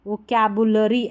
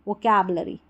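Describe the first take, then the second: First: "vocabulary" with a clear "bu", vo-ka-bu-la-ree; alternative pronunciation. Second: "vocabulary" with a reduced vowel, vo-kab-luh-ree; alternative pronunciation. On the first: Teacher offers one reading, "vocabulary" with bu sounded. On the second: Teacher offers second reading, "vocabulary" as vo-kab-luh-ree. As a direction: swallow the u in "vocabulary". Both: Shown as a demonstration. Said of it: "ऐसे भी पढ़ सकते हैं".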